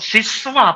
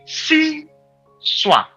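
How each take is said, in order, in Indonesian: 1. Kata itu dipisah menjadi sis-wa. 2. Kata itu dipisah menjadi si-swa. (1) "bukan siswa, bukan" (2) "Tapi siswa. Seperti si Badu"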